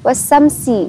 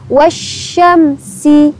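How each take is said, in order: First: The middle consonant is a plain s sound. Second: The middle consonant is an sh sound. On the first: The speaker calls it wrong. "wasamsi bukan" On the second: The speaker calls it right. "tetapi sya satu baru sin"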